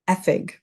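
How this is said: It is said the Connacht way, starting with 'eh'.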